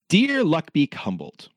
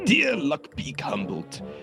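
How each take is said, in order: First: It is read in the speaker's ordinary voice. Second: It is read in a put-on character voice.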